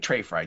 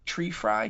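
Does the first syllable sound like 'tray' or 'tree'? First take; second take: tray; tree. First: The first syllable sounds like 'tray'. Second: The first syllable sounds like 'tree'. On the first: "Trey or tree?" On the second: "Trey or tree?"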